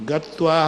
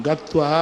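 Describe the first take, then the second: No difference in how they are said.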